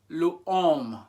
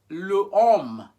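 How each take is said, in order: First: The vowel of le is kept before homme. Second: The vowel of le is kept before homme.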